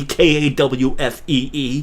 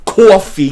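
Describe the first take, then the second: First: "K A W F E E" spelt out slowly in a New York accent, long open aw; thick New York "kawfee"; New York coffee. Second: Said in the usual way. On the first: Shown as a demonstration.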